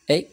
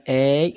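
First: "أي" as a short, closed French é; closed é sound. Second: "أي" as an open, drawn-out French è; open è sound. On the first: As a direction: say "أي" tight, as in é with acute accent. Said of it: "أي هي لاكسون إيغي". ("أي" مسدودة وقصيرة بحال é) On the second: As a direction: say "أي" wide open, as in è with grave accent. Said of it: "وعندنا أي هي لاكسون". ("أي" محلولة ومطولة بحال è) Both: Shown as a demonstration.

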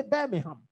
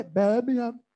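First: Said in the usual way. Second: Birmingham with the h dropped, stretched first syllable; local Birmingham pronunciation. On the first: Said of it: "They don't say Birmingham". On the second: Shown as a demonstration. Preacher mimicking how locals say it, h-less Birmingham. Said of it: "They say Birmingham".

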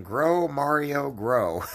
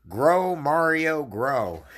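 First: High, slow yelled Grow, Mario on the retelling; slightly less big retold yell; mock yell. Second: High, slow yelled Grow, Mario; drawn-out mock shout with a big first Grow. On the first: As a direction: shout it out as the punchline. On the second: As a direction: bellow it like a drunk at a party. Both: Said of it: "started yelling".

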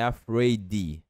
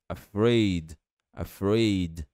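First: AFRAID as "afray-dee"; Brazilian-style AFRAID with an extra final syllable; wrong AFRAID with final I. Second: AFRAID ending on a bare D; two syllables in AFRAID, stopped on the D; correct final D. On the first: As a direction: add an "ee" after the D in AFRAID. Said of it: "não é afraid". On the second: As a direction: say AFRAID slowly with no vowel after the D. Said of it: "é simplesmente D". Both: Shown as a demonstration.

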